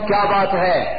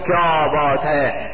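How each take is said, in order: First: It is said with a questioning tone. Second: It is said with an amazed tone. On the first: The speaker is asking what the matter is. "کیا بات ہے سوال ہوا" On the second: The speaker is expressing admiration or wonder. "کیا بات ہے حیرت کا اظہار"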